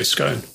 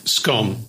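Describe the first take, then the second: First: "scone" with a long o; "scone" with the vowel of "go". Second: "Scone" with a short o; "Scone" with the vowel of "on". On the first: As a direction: say "scone" to rhyme with bone. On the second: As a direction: say "Scone" to rhyme with gone. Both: Shown as a demonstration. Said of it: "you'd think I'd say scone".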